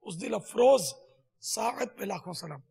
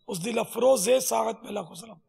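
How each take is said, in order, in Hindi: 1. 'afroz' को अगले शब्द से जोड़ने वाली कोई अतिरिक्त स्वर ध्वनि नहीं है। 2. 'afroz' को अगले शब्द से जोड़ने वाली एक अतिरिक्त '-e' स्वर ध्वनि है।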